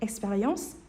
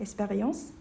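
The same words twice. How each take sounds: The two takes are said the same way.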